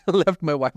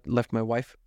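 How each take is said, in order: First: Laughing. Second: Said in the usual way. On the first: Real, not acted. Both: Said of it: "I said it like [name] left his girlfriend".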